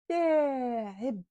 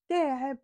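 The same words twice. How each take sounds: First: The vowels are pronounced fully and clearly. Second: The word is said quickly with clipped vowels. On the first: This is the literary standard form. "avec l'arabe littéraire, on prononce les voyelles" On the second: This is the Tunisian dialect form. "c'est-à-dire on fait vite"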